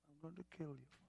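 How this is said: The threat is said calmly and casually.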